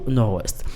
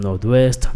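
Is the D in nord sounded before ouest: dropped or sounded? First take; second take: dropped; sounded. First: The D is dropped, linking nor straight to ouest. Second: The D of nord is pronounced before ouest. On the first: The speaker calls it right. "les prononcer tout simplement à coup nord-ouest" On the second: The speaker calls it wrong. "en pile monde prononcé comme nord-ouest"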